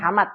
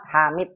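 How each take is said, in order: First: Hamad with a plain open a in the second syllable, the mistaken form; wrong vowel Hamad. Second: Hamid with a clear i in the second syllable and a slight rise; correct Hamid. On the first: Teacher quoting the student's wrong Hamad. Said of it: "bukan mat". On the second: Teacher giving the right reading, clear i in Hamid. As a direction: model the right vowel in Hamid. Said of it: "bukan Hamad". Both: Shown as a demonstration.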